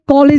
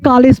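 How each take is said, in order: First: The first vowel sounds like 'oh'. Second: The first vowel sounds like 'ah'. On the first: The speaker calls it wrong. "कॉलेज नहीं पढ़ के" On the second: The speaker calls it right. "कॉलेज पढ़ते हैं"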